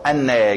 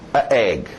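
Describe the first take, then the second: First: An n sound links the two vowels. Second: The two vowels meet with no linking sound. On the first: The speaker calls it right. "flui melhor" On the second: The speaker calls it wrong. "É só mais difícil"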